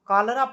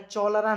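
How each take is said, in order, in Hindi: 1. इस शब्द की शुरुआत k की आवाज़ से होती है। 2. इस शब्द की शुरुआत ch की आवाज़ से होती है। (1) "कॉलरा पढ़ा जाएगा" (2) "चौलरा नहीं"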